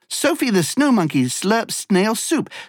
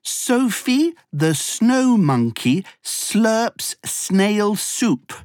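First: The sentence is spoken at a very fast pace. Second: The sentence is spoken at a moderate pace.

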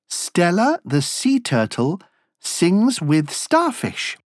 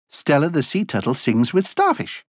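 First: It is said at a slow, normal pace. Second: It is said at a faster pace.

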